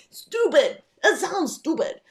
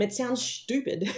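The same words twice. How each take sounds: First: High, loud, laughing repeat; mock the word through a laugh, pitched up high; laughing mockery. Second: Said in the usual way. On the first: Shown as a demonstration. Joking about how the song sounds without the accent, laughing mockery.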